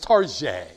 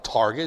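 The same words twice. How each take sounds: First: The name is said in a fancy, posh way. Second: The name is said in a plain, ordinary way. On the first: The store is treated as upscale. "I mean, we're upscale around this damn place" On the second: It is an ordinary discount store. "It's not Target"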